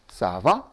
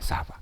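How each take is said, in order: First: The pitch rises slightly at the end. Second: The pitch stays level or falls at the end. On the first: It asks how someone is doing. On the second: It is a plain statement.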